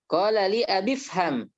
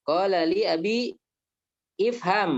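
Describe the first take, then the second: First: The words run together without a glottal stop. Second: A glottal stop separates abi and ifham. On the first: "kalau begini kita masuk saja langsung ya"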